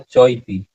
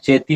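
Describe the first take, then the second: First: The two words stay apart as 'chau-iti'. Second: The two words merge into 'cheti'. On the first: The speaker calls it right. "इसका उच्चारण क्या होगा?" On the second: The speaker calls it wrong. "इसका उच्चारण चेती नहीं होगा"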